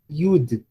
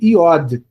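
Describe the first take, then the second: First: The middle vowel sounds like U. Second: The middle vowel sounds like O. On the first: The speaker calls it right. "A forma correta do nome dessa consoante é iud. Com U, som de U" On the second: The speaker calls it wrong. "geralmente a gente vê por aí nos livros ou na internet"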